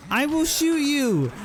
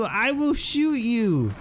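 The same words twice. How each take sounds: First: Even higher, desperate repeat of the threat; pitched-up repeated threat; higher frantic threat. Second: High, slow, drawn-out warning; slow high-pitched threat. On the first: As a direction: push the warning up higher. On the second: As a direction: spell out the threat slowly, voice up high. Threatening the attacking cow. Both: Real, not acted.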